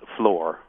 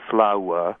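First: The vowel is a single steady sound. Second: The vowel glides as a diphthong. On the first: This is how it sounded in Shakespeare's day. "So it becomes a single vowel" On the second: This is the modern pronunciation. "not what we call a diphthong, which would be flower"

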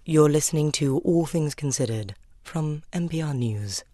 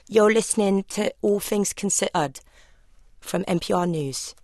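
First: It is said in a posh BBC-style accent. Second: It is said in a Southeast London accent.

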